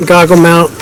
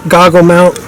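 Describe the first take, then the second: No difference in how they are said.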